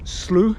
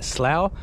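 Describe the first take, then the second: First: Slough is pronounced the Canadian way. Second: Slough is pronounced the English way. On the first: "it's Slough when in Canada, speak Canadian" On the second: "in English we will pronounce that Slough"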